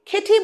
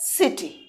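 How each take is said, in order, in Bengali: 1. শব্দটি একটি 'k' ধ্বনি দিয়ে শুরু হয়। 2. শব্দটি একটি 's' ধ্বনি দিয়ে শুরু হয়। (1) "আমরা কি এটাকে খেটি বলবো? না" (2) "আমরা কি বলি এটাকে সিটি"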